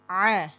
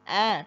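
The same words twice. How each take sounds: First: A vowel squeezed from deep in the throat. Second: A plain open vowel with no throat catch. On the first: The speaker calls it right. "tapi a. Dari tenggorokan tengah" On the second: The speaker calls it wrong. "tidak sekadar a"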